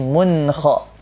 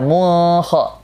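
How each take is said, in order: First: The n sound is pronounced clearly before kha. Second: The n sound is dropped before kha. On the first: The speaker calls it right. "tapi mun kha" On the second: The speaker calls it wrong. "Jangan dibaca"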